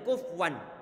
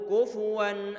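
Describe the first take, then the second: First: The f has no vowel after it. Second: The f is followed by a u vowel. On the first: The speaker calls it wrong. "Tidak boleh kufwan" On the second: The speaker calls it right. "huruf fa-nya didommahkan"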